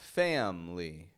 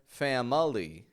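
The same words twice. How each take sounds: First: The middle vowel is dropped, giving two syllables. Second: The middle vowel is pronounced, giving three syllables. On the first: The speaker calls it right. "but rather family" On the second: The speaker calls it wrong. "I'm not pronouncing the I. I'm not saying family"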